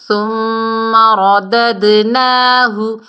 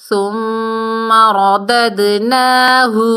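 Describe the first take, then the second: No difference in how they are said.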